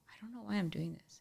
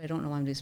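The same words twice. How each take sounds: First: Hushed whisper. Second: Said in the usual way. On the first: Retold or imitated. Donor's words retold.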